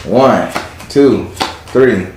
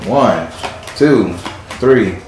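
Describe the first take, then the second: No difference in how they are said.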